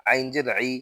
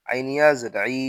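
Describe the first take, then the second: First: Final আই with a short i; no stretch. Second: Final আই with a long i; আই held long; stretched vowel. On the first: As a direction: cut the last আই short. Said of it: "শুধু জের থাকলে টান দিব না". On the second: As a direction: draw out the last আই. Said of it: "তখন জেরে টান দিব". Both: Shown as a demonstration.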